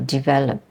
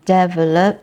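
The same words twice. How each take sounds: First: The stress is on the second syllable. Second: The stress is on the first syllable. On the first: The speaker calls it right. "the stress is in the second syllable" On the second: The speaker calls it wrong. "and not develop"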